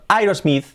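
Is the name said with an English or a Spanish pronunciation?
Spanish. It is said with a Spanish pronunciation. The speaker calls it wrong. "si decimos Aerosmith, no nos van a entender"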